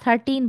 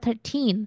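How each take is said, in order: First: The last syllable is weak and unstressed. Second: The last syllable is clear and stressed. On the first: The speaker calls it wrong. "তারা thirteen বলে না" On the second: The speaker calls it right. "তারা বলে thirteen"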